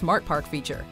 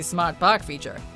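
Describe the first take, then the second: First: The R sounds are pronounced in a standard accent. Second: The R sounds are dropped in a Boston accent.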